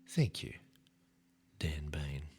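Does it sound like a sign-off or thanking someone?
sign-off. It sounds like a sign-off giving the speaker's name.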